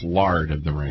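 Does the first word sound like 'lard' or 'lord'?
lard. The first word has an 'ar' vowel. "In St. Louis, it's Lard of the Rings"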